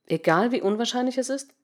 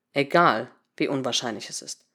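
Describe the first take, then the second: First: Higher pitch climbing through "wie unwahrscheinlich es ist"; tentative rising question up to "ist". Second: Low, falling "Egal", then a pause; low settled statement, "Egal" set apart; confirming. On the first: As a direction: ask it doubtfully, lifting the end of "ist". Doubtful question, then answered in confirmation. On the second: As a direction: confirm it gravely, "unwahrscheinlich es ist" low and soft. Confirms the question just asked. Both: A narrator's reading.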